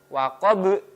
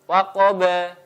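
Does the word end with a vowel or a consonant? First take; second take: consonant; vowel. First: The word stops on a bouncing final consonant. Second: The word ends with a short vowel.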